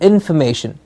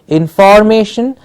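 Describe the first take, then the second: First: The middle syllable is reduced to fm. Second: The middle syllable has a full vowel. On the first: The speaker calls it right. "it's a fm in the middle" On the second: The speaker calls it wrong. "It's not information"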